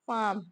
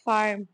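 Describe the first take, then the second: First: The r sound is left out entirely. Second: The r sound is clearly pronounced. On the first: "उसमें आर sound डालते ही नहीं है" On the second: "हमारा थोड़ा आर का sound निकलता है"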